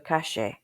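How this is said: The double L sounds like the sh in shoe. "or even like the S H in shoe"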